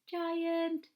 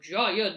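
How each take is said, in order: First: It is said in a gentle, friendly voice. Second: It is said in a menacing, scary voice. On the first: The giant is kind. "we can do a nice giant face like this" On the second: The giant is frightening. "with a scary voice and a scary face"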